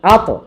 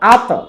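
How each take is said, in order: First: The final consonant ends with a bouncing release. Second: The final consonant ends with a bouncing release.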